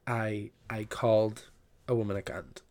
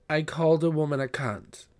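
First: Said in the usual way. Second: "cunt" ending in a crisp, hard T. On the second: Real, not acted. Confessing to viewers, cunt with a hard T. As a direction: spit out the final T of "cunt". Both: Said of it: "I just used the hard T".

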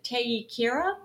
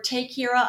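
First: "Teikira" drawn out, first part stretched; tentative pronunciation. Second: "Teikira" run together more compactly; alternative pronunciation. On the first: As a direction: sound out "Teikira" slowly, unsure. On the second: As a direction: offer "Teikira" as a second, tighter guess. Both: Shown as a demonstration. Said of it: "not sure how to pronounce the name".

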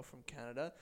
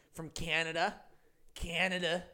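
First: Said in the usual way. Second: A clumsy, hammed-up Canadian accent on From Canada; mock Canadian accent, a touch louder; bad Canadian accent. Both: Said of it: "That's not a good accent".

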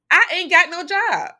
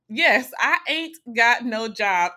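First: High, loud exclamation; panicked outburst. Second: Slow, loud confirmation on "Yes, I ain't got no job"; emphatic repeat. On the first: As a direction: blurt it out loud, pitched way up. Reliving panic over losing job. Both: Retold or imitated.

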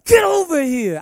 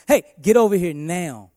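First: Sudden high, loud yell; harsh yell. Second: Louder, firm command with weight; firm call with oomph. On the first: Father yelling at his son the wrong way. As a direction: bark it at him much too hard. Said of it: "I wouldn't talk to him like that". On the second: Father calling his son with authority. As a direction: call him over with authority. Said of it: "with some oomph to my voice". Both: Shown as a demonstration.

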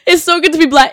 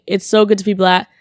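First: Louder and higher, proud; emphatic repeat. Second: Said in the usual way. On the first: Real, not acted. Laughing off her slip to listeners, proud louder repeat. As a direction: say it again with full pride. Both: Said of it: "but I meant to say it's so good to be back".

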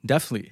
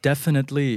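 First: "definitely" said fast, middle syllables swallowed to "def-ly"; quick reduced pronunciation. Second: Said in the usual way. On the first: Shown as a demonstration. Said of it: "เร็วๆ ผมอ่านว่า". (พูด "definitely" เร็วๆ รวบเหลือ "เดฟ-ลี่") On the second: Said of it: "ตอนที่ผมอ่านเร็วๆ".

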